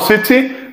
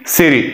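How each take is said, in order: First: The middle consonant is a clear, crisp t. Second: The middle consonant is a soft d sound. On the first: The speaker calls it wrong. "not city" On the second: The speaker calls it right. "we're gonna pronounce like D"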